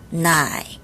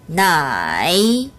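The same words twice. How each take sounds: First: The first syllable falls low and is cut short. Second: The first syllable dips low, then rises again. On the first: "앞에 부분 반삼성" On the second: "이렇게 발음되지 않았어요"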